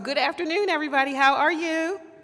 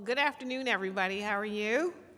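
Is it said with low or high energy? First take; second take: high; low. First: It is said with more energy and volume. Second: It is said with ordinary, lower energy.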